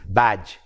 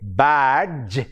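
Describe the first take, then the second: First: No separate d sound is pronounced before j. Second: A stressed d sound is pronounced before j. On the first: The speaker calls it right. "the correct pronunciation is badge. The D is silent" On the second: The speaker calls it wrong. "we tend to pay emphasis to this d sound. We say badge"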